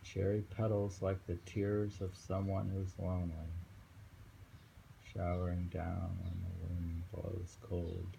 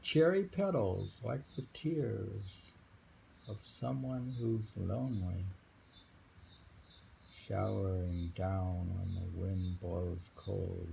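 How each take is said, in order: First: Steady, slightly softer reread; just read it straight; plain poem reading. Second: Slow, raised recital voice; slow poem reading. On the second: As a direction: draw out the image of falling petals. Reads a poem. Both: Acted.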